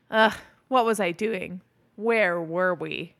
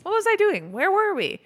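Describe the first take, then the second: First: Slower, dragged-out muddled take; mock fuddled, slowing down; a slowed, sleepy reading of the line; slow groggy take. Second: Pitched way up, loud and silly; mock high-voiced confusion; a hammed-up high take of the line; high squeaky take. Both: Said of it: "He does a couple different takes of that".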